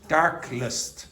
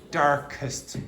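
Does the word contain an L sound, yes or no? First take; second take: yes; no. First: An L sound is inserted before the ending. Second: No L sound is inserted before the ending. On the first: The speaker calls it wrong. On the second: The speaker calls it right.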